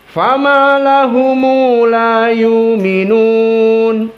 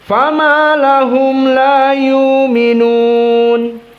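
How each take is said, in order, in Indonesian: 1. Lahum berakhir dengan vokal tambahan, lahumu. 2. Lahum berakhir dengan konsonan m.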